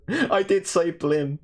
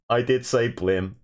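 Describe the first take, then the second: First: Slow, much higher mock-horrified "I did say blim"; mock dramatic confession. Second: Said in the usual way. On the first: Shown as a demonstration. Streamer to his chat, mock-horrified and slow. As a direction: drag out "I did say blim" in high, theatrical dismay. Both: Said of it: "the fact that Slate said, Slate said blim".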